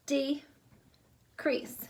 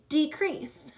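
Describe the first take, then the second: First: "Decrease" broken in two with a clear pause; split into syllables. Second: Said in the usual way. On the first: Shown as a demonstration. Teacher giving the syllable answer, "Decrease" split in two. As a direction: say "Decrease" as de, then crease. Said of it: "Two syllables". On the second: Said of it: "How many syllables are in the word decrease".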